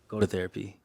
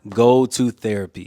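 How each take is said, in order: First: It is said at normal volume. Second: It is said louder.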